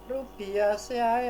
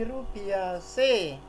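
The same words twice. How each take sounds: First: The final ae is said as two vowels. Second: The final ae is said as one e. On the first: The speaker calls it wrong. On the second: The speaker calls it right.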